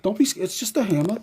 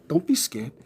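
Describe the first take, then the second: First: Higher cooing voice for a dog; high puppy talk. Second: Said in the usual way. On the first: Real, not acted. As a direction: coax the scared dog in a higher voice. Soothing the dog.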